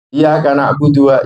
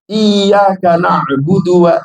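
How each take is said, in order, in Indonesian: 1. Bunyi y dibaca pendek dan tunggal. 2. Bunyi y dibaca panjang dan ganda. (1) "gak ditekan bacaannya" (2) "Harus ditekan"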